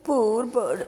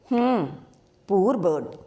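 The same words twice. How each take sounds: First: A touch of heartfelt pity; sadly. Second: Mocking "హ్మ్, poor bird" with a scornful huff; sarcastically. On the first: Sabari over the dead bird, mildly sorrowful. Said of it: "తన ధోరణిలో అన్నది శబరి బాధగా". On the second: Jyothi mocking Sabari's pity for the bird, lightly sarcastic. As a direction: lightly sneer the echo back. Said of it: "అన్నది జ్యోతి వ్యంగ్యంగా". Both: A narrator's reading.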